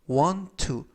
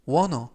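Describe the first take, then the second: First: Both words are said fully and separately. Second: The words are blended together into one. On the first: "want to를 want to" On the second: "wanna 라고 발음하셔도 됩니다"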